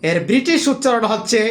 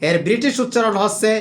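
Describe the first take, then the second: No difference in how they are said.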